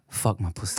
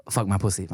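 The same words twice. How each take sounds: First: Low, coy British imitation; softer mock British accent; imitated accent of the girl. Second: Said in the usual way. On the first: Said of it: "we had that girl saying crazy shit". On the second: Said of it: "Yo, yo, yo, yo, say".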